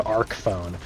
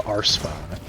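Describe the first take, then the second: First: "Arc phone" with Arc said like "ark"; hard-K pronunciation. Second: "Arce phone" with Arce said like "arse"; soft-C pronunciation. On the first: Arguing from the game's gadget name, "Arc phone" said ARK phone. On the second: Showing why the soft reading fails, "Arce phone" said ARSE phone. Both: Shown as a demonstration. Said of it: "isn't going to give you".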